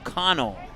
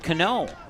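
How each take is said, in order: First: The first syllable sounds like 'con'. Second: The first syllable does not sound like 'con'. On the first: The speaker calls it right. "Like a con man and an O" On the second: The speaker calls it wrong. "I'll get it right eventually"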